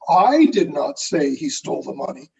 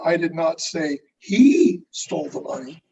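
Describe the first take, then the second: First: The stress falls on the word I. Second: The stress falls on the word he. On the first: Someone else said it. "who did say it?" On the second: Someone else stole it. "who are you saying stole it?"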